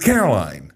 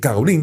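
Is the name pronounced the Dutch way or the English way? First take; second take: English; Dutch. First: The name is pronounced with English sounds. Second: The name is pronounced with Dutch sounds. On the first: This is the name used in English. The speaker calls it wrong. "dan heet je niet Caroline" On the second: This is the name used in the Netherlands. The speaker calls it right. "dan heet je Caroline"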